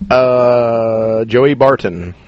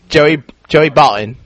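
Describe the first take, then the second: First: The T in Barton is clearly pronounced. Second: The T in Barton is dropped. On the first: The speaker calls it wrong. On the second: The speaker calls it right.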